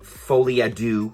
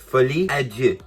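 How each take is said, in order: First: It is said with an American English pronunciation. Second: It is said with a French pronunciation. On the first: The speaker calls it wrong. "not Folie à Deux, all you Americans out there" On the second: The speaker calls it right. "listen to the French version of it"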